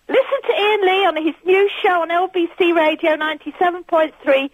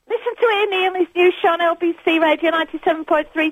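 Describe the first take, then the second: First: It is read fairly fast, not at top speed. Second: It is read as fast as possible.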